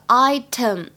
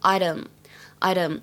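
First: The t sound is crisp and clear. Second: The t sound is soft, like a d.

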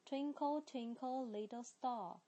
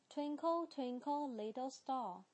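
The two takes are said the same way.

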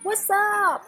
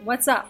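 First: It is said in a very exaggerated tone. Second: It is said in a plain, ordinary tone.

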